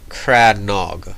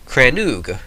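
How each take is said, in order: First: The last syllable has an o vowel. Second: The last syllable has an oo vowel. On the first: The speaker calls it right. "my official pronunciation" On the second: The speaker calls it wrong. "because it got that little accent on the O there"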